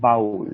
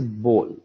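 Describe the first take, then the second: First: The vowel sounds like the one in 'bowel'. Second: The vowel sounds like the one in 'go'. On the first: The speaker calls it wrong. "It's not bowl. It's not uh, like a, a bowel" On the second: The speaker calls it right. "The correct way of pronouncing this is bowl"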